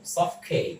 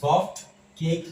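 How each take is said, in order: First: The t at the end of soft is dropped. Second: The t at the end of soft is pronounced. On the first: The speaker calls it right. "এটা উচ্চারিত হবে না" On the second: The speaker calls it wrong. "সফট cake না বলে"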